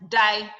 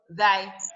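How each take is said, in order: First: The first sound is a plain d. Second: The first sound is a voiced th. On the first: The speaker calls it wrong. "You call B as thy" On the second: The speaker calls it right. "but it's what? Thy"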